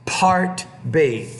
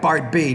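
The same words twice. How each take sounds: First: The p is said with a strong puff of air. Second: The p is said with little puff of air. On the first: The speaker calls it right. "you need to pronounce that with a lot more air" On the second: The speaker calls it wrong. "you're like part B. No"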